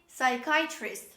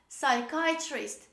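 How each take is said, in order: Both takes have the same delivery.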